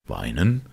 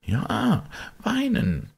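First: Understated horrified question on "Weinen". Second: High, hushed servant's answer; servant confiding. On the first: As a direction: ask it in shocked disbelief, voice rising. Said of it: "rief der Advokat mit Entsetzen". (leicht entsetzte Rückfrage) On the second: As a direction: confirm it in a much higher voice. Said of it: "sagte der Diener". (hohe Stimme des Dieners) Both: A narrator's reading.

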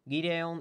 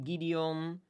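First: "Gideon" said GEE-day-on; second pronunciation attempt. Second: "Gideon" said GEE-dee-on, rising at the end; tentative "Gideon" with "i" before "on"; unsure pronunciation. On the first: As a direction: say "Gideon" with an ay before "on". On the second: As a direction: try "Gideon" with an ee-on ending, questioning. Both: Shown as a demonstration. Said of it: "Ik weet niet echt hoe je dat zegt".

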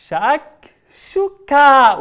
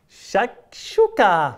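First: شكشوكة stretched out long, loud and high; louder magic word. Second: Slow chant. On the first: Host shouting the magic word with the children, stretched out. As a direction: shout شكشوكة slowly for the kids. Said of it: "بصوت أعلى". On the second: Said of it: "قولوا شكشوكة مع بعض". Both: Shown as a demonstration.

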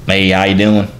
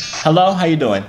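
First: Put-on country-accent greeting, punched a little louder. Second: Said in the usual way. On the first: Greeting a stranger on video chat, in country accent. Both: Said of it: "let me do a break from the accent".

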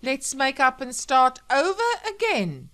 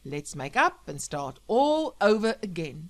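First: Loud, high, mocking sing-back; bitter mimicry. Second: Loud radio host with a touch of emotion; choked-up radio dedication. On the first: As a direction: parrot his plea with biting sarcasm. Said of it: "she said bitterly". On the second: Acted. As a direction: deliver the plea as a heartfelt on-air message. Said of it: "Sam choked up".

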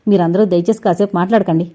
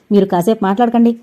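First: Calm, weighty request for silence; grave and composed. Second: Louder, snapping at him; sharp rebuke. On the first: Heroine calmly hushing the whole family, grave. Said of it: "అంది హరిణి గంభీరంగా". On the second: Young woman silencing the meddling man, sharp and loud. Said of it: "అని అవతారాన్ని కసిరింది Harini". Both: A narrator's reading.

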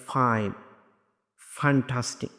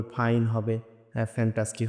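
First: ফাইন, ফ্যান্টাস্টিক opened with a true airy f; correct F sound. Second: ফাইন, ফ্যান্টাস্টিক with Bengali ফ, lips together; puffed p-h to start ফাইন and ফ্যান্টাস্টিক; casual aspirated p in place of f in ফাইন, ফ্যান্টাস্টিক; wrong F sound. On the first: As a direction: teeth on lip to start ফাইন and ফ্যান্টাস্টিক. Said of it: "তাহলে সঠিক উচ্চারণটা আসবে". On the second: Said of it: "তখন ভুল উচ্চারণ হবে". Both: Shown as a demonstration.

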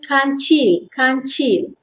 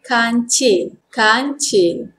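First: Formal "kancil" with a clear final I; careful textbook "kancil"; formal Malay pronunciation. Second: Everyday "kancil", relaxed last vowel; casual Malay form of "kancil"; informal Malay pronunciation. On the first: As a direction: say "kancil" as kan-chil. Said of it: "Formal pronunciation". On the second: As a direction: say "kancil" colloquially. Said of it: "Informal pronunciation". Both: Shown as a demonstration.

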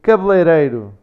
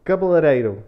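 First: "Cabeleireiro" louder, first vowels squeezed to "kbl"; model pronunciation. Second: "Cabeleireiro" higher, every first vowel sounded out; learner's attempt. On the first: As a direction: demonstrate "Cabeleireiro" in European Portuguese. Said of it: "Say that one again". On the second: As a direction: try "Cabeleireiro" after the teacher, "ka-be-le". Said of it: "I can't say that one". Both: Shown as a demonstration.

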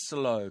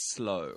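First: "slow" in two syllables, sa-LOH; split SLOW. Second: "slow" as one syllable, S glued to L; joined S-L. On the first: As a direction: put a vowel between S and L in "slow". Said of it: "อย่าลืมว่ามันไม่ใช่". (ออกเสียง "slow" ผิดเป็น สะ-โล) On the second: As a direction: say "slow" with no vowel between S and L. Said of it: "S ต้องติดกับ L ครับ อย่างนี้". (ออกเสียง "slow" ให้ S ติดกับ L) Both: Shown as a demonstration.

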